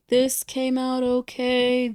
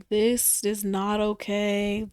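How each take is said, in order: First: Said in the usual way. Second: Not said slow and firm; stress on not. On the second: Shown as a demonstration. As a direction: lean on not, slowly.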